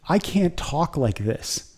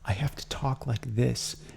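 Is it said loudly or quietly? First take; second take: loudly; quietly. First: It is said in a normal, loud voice. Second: It is said quietly and without energy.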